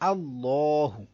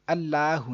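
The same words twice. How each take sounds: First: The L sound is thick and heavy. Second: The L sound is thin and light. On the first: The speaker calls it right. "हमने इसको मोटा पढ़ देना है" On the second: The speaker calls it wrong. "अल्लाहु नहीं"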